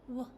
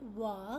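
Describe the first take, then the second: First: The consonant is said alone, without a vowel. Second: A vowel sound follows the consonant. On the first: The speaker calls it right. "it is w" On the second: The speaker calls it wrong. "It is not wa"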